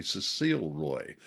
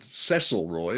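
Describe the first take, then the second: First: "Cecile Roy" with Cecile as seh-SEEL; alternative pronunciation. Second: "Cecil Roy" with Cecil as SESS-il; preferred pronunciation. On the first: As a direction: stress the second syllable of "Cecile", long ee. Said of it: "but it might be". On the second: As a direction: stress the first syllable of "Cecil", short e. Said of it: "I would pronounce it". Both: Shown as a demonstration.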